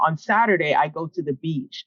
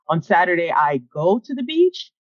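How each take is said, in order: First: It is said as a plain statement, falling. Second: It is said with questioning intonation, rising.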